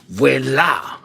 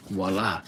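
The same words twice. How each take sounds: First: "voila" said the French way, like "vwela". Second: Said in the usual way. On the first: Shown as a demonstration. Streamer joking to viewers how the French say it, mock French. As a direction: give "voila" a put-on French sound. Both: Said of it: "Or as the French say".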